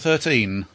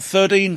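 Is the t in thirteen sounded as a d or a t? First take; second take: t; d. First: The middle t is sounded as a clear t. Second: The middle t is sounded like a d.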